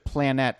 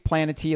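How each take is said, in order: First: The name ends in a stressed 'net' sound. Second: The name ends in an extra 'tee' syllable. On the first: "like Annette" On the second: "like she's a manatee"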